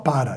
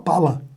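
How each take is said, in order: First: The middle consonant is a tapped R. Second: The middle consonant is an L. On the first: "ele não fala para" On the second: "ele troca o R pelo L"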